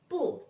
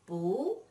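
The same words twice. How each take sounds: First: The pitch falls sharply on the syllable. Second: The pitch rises on the syllable.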